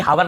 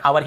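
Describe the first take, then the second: First: "हावर" with the H sounded; wrong pronunciation. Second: "आवर" starting on the vowel, no H; correct pronunciation. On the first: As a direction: begin "हावर" on a clear h, as how-er. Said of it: "हावर नहीं पढ़ना". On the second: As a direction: say "आवर" as ow-er, H silent. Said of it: "आवर ही पढ़ेंगे". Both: Shown as a demonstration.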